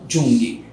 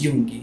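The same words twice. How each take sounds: First: The name begins with a zh sound. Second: The name begins with a Y sound. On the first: The speaker calls it wrong. "Não Jung" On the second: The speaker calls it right. "Mas a pronúncia, então, é"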